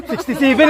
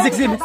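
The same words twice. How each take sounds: First: "Sixty-seven" with the middle "-ty" sounded; correct number pronunciation. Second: "six seven" with no "-ty" in the middle; mistaken number pronunciation. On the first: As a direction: say "Sixty-seven" in full, including "-ty". ("Sixty-seven", binibigkas ang "-ty") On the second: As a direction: say "six seven" as two bare digits. ("six seven", walang "-ty" sa gitna) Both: Shown as a demonstration. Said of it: "hindi six seven".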